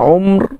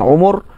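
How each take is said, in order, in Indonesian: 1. Satu suku kata, diawali dengan vokal u. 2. Dua suku kata, keduanya dengan vokal u. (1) "boleh baca dengan umr" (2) "boleh baca dengan umur"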